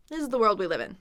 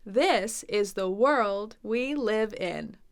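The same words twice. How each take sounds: First: Quick, run-together sentence; casual mumbler speech. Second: Very slow, each word separately articulated; over-enunciate it slowly like an English teacher; clear teacher speech. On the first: Teacher shows how Americans really talk, run together. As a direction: blend the words like a casual American. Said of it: "A lot of Americans are mumblers". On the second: American English teacher speaking so clearly, slow and careful. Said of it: "talk so clearly like American English teachers". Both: Shown as a demonstration.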